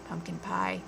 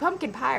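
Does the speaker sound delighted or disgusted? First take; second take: disgusted; delighted. First: It is said with disgusted distaste. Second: It is said with delighted enthusiasm. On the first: The person hates it. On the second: The person loves it.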